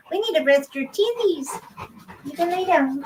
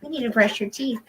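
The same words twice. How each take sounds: First: Higher cooing pet voice with teethies said cutely. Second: Said in the usual way. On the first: Real, not acted. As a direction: coo teethies at the dog. Baby talk to dog.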